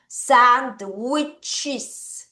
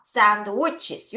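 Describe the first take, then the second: First: Sandwiches drawn out syllable by syllable; careful plural demo. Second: Said in the usual way. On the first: Shown as a demonstration. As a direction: slowly model sand-wich-es with the extra final syllable. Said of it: "자, 발음할게요". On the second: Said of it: "한 번 더".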